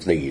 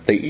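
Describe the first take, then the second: First: The syllable carries the dipping hỏi tone. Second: The syllable carries the broken, glottalized ngã tone. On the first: It means to compare. The speaker calls it wrong. "chứ không phải là dấu hỏi" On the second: It means nose. The speaker calls it right. "Tỷ là dấu ngã"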